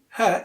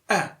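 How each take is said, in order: First: The word is said in its full strong form. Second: The word is reduced to a weak vowel. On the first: The speaker calls it wrong. "You don't say her" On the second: The speaker calls it right. "Instead, you say a"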